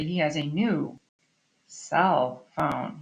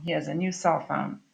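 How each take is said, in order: First: "new", then a clear break before "cell phone"; wrong comma pause. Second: Said in the usual way. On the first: Shown as a demonstration. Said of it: "you wouldn't say". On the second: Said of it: "not really functioning like an adjective".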